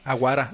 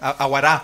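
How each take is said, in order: First: The stress is not on the last syllable. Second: The stress is on the last syllable. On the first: The speaker calls it wrong. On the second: The speaker calls it right.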